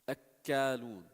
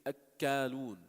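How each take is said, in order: No difference in how they are said.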